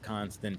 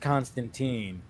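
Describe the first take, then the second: First: The name has its British pronunciation. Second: The name has its American pronunciation. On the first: "if the British version is Constantine" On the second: "since Keanu Reeves is American, it's Constantine"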